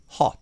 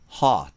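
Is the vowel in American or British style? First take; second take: British; American. First: A British accent with a shorter vowel. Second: An American accent with a longer vowel. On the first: "イギリス英語で読みたいなら、ちょっと口を縦にして、短めにして" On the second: "アメリカ英語で読みたいなら、実際の音声はちょっと長めにして"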